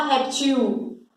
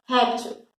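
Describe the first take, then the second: First: Réptil with a full, clear final il; réptil said the wrong way, il fully sounded; réptil with the final il over-pronounced. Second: Réptil said naturally, il barely there; réptil, stress on rép and a faint ending; weak final il. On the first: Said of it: "Você não fala réptil". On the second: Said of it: "você fala réptil". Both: Shown as a demonstration.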